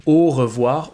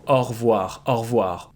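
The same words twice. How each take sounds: First: "au revoir" opening on a closed "oh", E kept; careful three-syllable "oh-ruh-vwar". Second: "au revoir" opening on an open "aw", E dropped; casual two-syllable "au revoir" with open O. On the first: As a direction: say "au revoir" in full with a rounded closed O. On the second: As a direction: say "au revoir" as "or-vwar". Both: Shown as a demonstration. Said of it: "an open O or a closed O".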